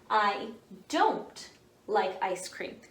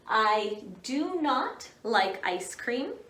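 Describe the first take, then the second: First: Do and not are joined into one short word. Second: The words do and not are said separately.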